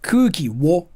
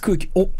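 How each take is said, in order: First: The particle is pronounced 'wo' with a w sound. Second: The particle is pronounced plain 'o' with no w. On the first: The speaker calls it wrong. "It's not kuki wo" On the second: The speaker calls it right. "it's kuki o"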